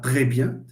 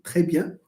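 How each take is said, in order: First: The r sound is voiced, with vibration. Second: The r sound is voiceless, without vibration. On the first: The speaker calls it wrong. "C'est pas" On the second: The speaker calls it right.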